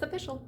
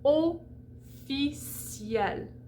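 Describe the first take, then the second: First: The word is said with English pronunciation. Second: The word is said with French pronunciation. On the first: The speaker calls it wrong. "which we would look at and be like, oh, that's official" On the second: The speaker calls it right. "it's pronounced like the Y of the English yes"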